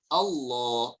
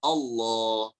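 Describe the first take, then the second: No difference in how they are said.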